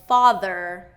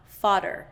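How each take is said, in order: First: The middle consonant is a th sound. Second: The middle consonant is a d sound. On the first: The speaker calls it right. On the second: The speaker calls it wrong. "not fodder"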